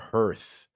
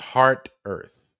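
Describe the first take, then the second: First: It is said as one syllable. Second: It is said as two syllables. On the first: The speaker calls it wrong. "It's not Hearth" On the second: The speaker calls it right. "Where is Heart Earth or Hearth?"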